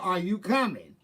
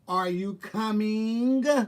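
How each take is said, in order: First: The final g of coming is dropped. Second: The final g of coming is clearly pronounced. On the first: "we bust the G off" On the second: "You could be talked with all letters being said"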